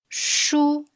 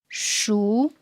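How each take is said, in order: First: The pitch stays high and level throughout. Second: The pitch rises from middle to high. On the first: It means book. "With the first tone, we read it high and flat" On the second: It means ripe. "The second tone is a rising tone"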